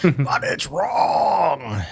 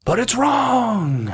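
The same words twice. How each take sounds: First: Slow, whiny fake sob; mock crying whine. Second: High, slow, far voice; high whiny voice. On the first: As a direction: wail it slowly like fake crying. Repeat of punchline, crying. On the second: Pretend. Mock whiny punchline.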